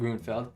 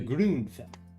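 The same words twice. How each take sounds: First: The first vowel is a plain English u. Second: The first vowel is a rounded umlaut ü. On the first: The speaker calls it wrong. "Not the Grunfeld" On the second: The speaker calls it right. "the Grunfeld"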